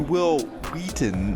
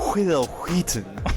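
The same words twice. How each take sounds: First: The H in Wheaton is said plainly. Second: The H in Wheaton is heavily breathed. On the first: The speaker calls it right. "it should be Will Wheaton" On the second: The speaker calls it wrong. "not Will Wheaton"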